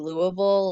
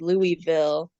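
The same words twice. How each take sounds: First: The name is slurred together and not clearly enunciated. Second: The name is said with every part clearly pronounced. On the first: The speaker is a local. "locals will say Louisville, like this really weird, um, you know, not well pronounced or enunciated version of the name" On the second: The speaker is not from the town. "it's supposed to be Louisville, which is, I think, what most um, people say if they're not from the town"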